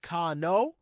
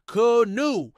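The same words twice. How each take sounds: First: Canoe as kah-NOH, the last vowel like "go"; wrong canoe. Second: Canoe slow, high and loud, stretched out; claimed correct canoe. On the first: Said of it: "The correct pronunciation is not canoe". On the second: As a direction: canoe drawn out and put on, higher and louder. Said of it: "but canoe". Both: Shown as a demonstration.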